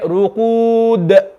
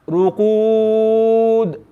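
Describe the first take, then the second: First: The final consonant is released with an echoing bounce. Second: The final consonant is held with no audible release. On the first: The speaker calls it right. "We want to read it ruqud" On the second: The speaker calls it wrong. "you can almost not hear the dal"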